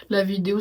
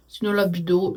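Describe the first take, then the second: First: Said in the usual way. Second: "la vidéo" slurred to "la bido", numb lips; numb-mouth slur. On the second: Real, not acted. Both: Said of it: "ah, c'est difficile quand même".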